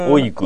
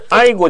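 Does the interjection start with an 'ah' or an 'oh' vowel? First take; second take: oh; ah. First: It starts with a rounder 'oh' vowel. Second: It starts with an open 'ah' vowel. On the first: It sounds like a man talking. The speaker calls it right. "そういうのが男性っぽい話し方で" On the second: It sounds unmanly. The speaker calls it wrong. "あいごとか言っちゃダメなの"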